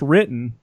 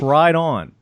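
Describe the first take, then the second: First: The name sounds like the word 'written'. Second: The name sounds like the phrase 'right on'. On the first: The speaker calls it wrong. "It's not pronounced written" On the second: The speaker calls it right. "It's pronounced right on"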